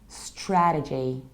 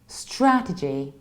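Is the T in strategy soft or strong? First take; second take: strong; soft. First: The T is stronger, in an American accent. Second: The T is softer, in a British accent.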